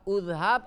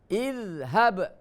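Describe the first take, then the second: First: The word begins with a u vowel. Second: The word begins with an i vowel. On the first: The speaker calls it wrong. "Tidak boleh udhab" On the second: The speaker calls it right. "dibacanya idhab"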